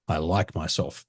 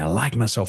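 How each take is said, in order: First: It is said flatly, without emotion. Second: It is said with strong, happy emotion.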